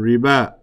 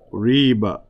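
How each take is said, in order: First: Riba carries Arabic-style emphasis placement. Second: Riba carries English-style emphasis placement. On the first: The speaker calls it right. "but actually it's" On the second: The speaker calls it wrong. "we don't know where to put the emphasis, so we say"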